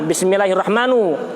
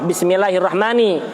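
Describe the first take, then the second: First: The word ends with a u vowel. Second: The word ends with an i vowel. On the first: The word is in the nominative case. "Apabila yang pertama dibaca dhammah" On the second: The word is in the genitive case. "Apabila yang pertama dibaca kasroh"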